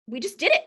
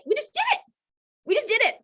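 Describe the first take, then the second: First: Said in the usual way. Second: Much higher, gleeful repeat; excited. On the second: Real, not acted. Speaker proudly recalling helping Kelly, high and thrilled.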